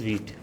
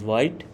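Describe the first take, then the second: First: The word is said like veet. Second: The word is said to rhyme with white. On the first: The speaker calls it right. "but it is Vite. V W E T" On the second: The speaker calls it wrong.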